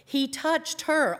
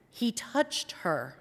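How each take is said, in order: First: "He touched her," said higher and slower, "her" leaned on; stress on her. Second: Said in the usual way. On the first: Shown as a demonstration. Preacher repeating "He touched her," higher and slower. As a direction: linger on "her" with a lifted voice.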